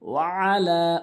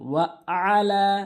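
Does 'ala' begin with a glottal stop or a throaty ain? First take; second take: throaty ain; glottal stop. First: It begins with a tight sound from mid-throat. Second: It begins with a plain glottal catch. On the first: The speaker calls it right. "আইনটি হলকের মাঝখান থেকে" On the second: The speaker calls it wrong. "অনেকেই ভুল উচ্চারণ করে ওয়া আলা বলে আইনের জায়গায় হামজা এনে"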